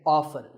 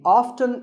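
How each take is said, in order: First: The T in the middle is silent. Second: The T in the middle is pronounced. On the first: "the more common pronunciation is with the T silent" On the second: "strictly speaking, often is not wrong"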